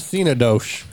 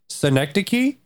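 First: The word is said as three syllables. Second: The word is said as four syllables. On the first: The speaker calls it wrong. "I full well knew how to pronounce it. I just did. I did that on purpose" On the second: The speaker calls it right. "yeah, that's the one"

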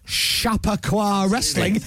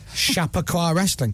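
First: The first syllable is heavily emphasized. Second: The first syllable has no extra emphasis.

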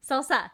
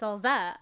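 First: The middle consonant is an s sound. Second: The middle consonant is a z sound. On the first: The speaker calls it right. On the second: The speaker calls it wrong.

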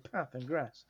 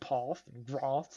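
First: It is said in a northern English accent. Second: It is said in a southern English accent. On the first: This is how the speaker normally talks. "I say words the same way as you. I say path and grass" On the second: This is not how the speaker normally talks. "I don't say path and grass"

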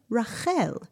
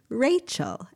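First: The name is pronounced with Hebrew sounds. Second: The name is pronounced with English sounds.

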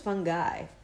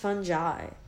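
First: It sounds like the two words 'fun guy'. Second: It does not sound like 'fun guy'. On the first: The speaker calls it wrong. "I thought it was Fun Guy" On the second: The speaker calls it right. "It's pronounced fungi, okay?"

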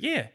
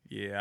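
First: The word is said in an ordinary, higher voice. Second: The word is said in a deep, low voice. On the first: He has nothing else to do. "But me, I'd be like, "Yeah." Like, I don't, like, it's not the same" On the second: He has better things to do but will dance anyway. "He has like a deeper voice"

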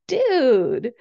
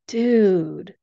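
First: It sounds happy and excited. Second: It sounds sad and disappointed.

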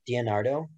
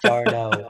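First: The name begins with an extra 'dee' syllable. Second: The name begins directly with 'dar'. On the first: The speaker calls it wrong. "I say it wrong" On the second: The speaker calls it right. "it is Darno"

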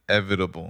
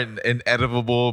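First: The middle has a clear 'v' sound. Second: The middle sounds like a 'd' instead of 'v'. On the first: The speaker calls it right. "There it is" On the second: The speaker calls it wrong. "It sounded like you said inedible. Ineditable"

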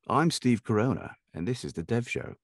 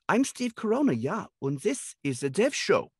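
First: It is said in a sophisticated, posh accent. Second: It is said in a German accent.

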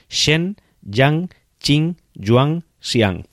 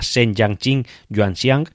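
First: The name is said at a slower pace. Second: The name is said at a quick pace.

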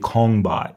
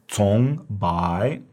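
First: The word starts without a ts sound. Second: The word starts with a ts sound. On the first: The speaker calls it wrong. "Please do not say kongbai" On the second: The speaker calls it right. "So it has a TS sound"

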